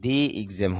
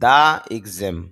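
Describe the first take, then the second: First: The word 'the' ends in an 'ee' sound. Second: The word 'the' ends in an 'uh' sound. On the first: The speaker calls it right. "টিএসির পরে যখন আপনার ভাওয়াল আসে তখন দি" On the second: The speaker calls it wrong. "টিএসির পরে যখন consonant আসে তখন টিএসির উচ্চারণ দা হয়"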